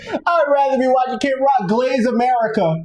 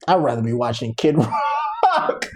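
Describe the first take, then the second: First: High-pitched mocking disbelief; incredulous mock quote. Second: Low, slow mocking quote; mock preference. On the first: Mocking people who'd rather watch [name], high and incredulous. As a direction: pitch it up, scoffing at the idea. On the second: Mocking people who'd rather watch [name], low and slow. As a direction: drag it out low, cracking up on the name.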